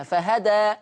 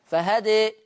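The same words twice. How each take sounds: First: فهدى ending on a full open aa; open alif. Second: فهدى ending leaned toward ee; reduced alif. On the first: Teacher shows callers the open ending of فهدى. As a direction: stop on فهدى with a wide aa. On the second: Teacher shows callers the reduced ending of فهدى. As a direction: stop on فهدى with the alif tilted to ee. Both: Shown as a demonstration. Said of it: "عايز الناس تقف عليها".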